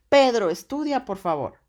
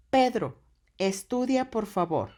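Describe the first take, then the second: First: Loud, high angry shout at her son; angry mother. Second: Higher, louder, a mother's firm order; commanding mom. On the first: Acted. Mother catching Pedro on his phone, angry shout. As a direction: shout the order like a fed-up mom. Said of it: "Cuando llega la mamá". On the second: Shown as a demonstration. Teacher voicing a mother ordering Pedro to study, firm. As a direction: tell Pedro firmly to study. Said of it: "entre signos de admiración".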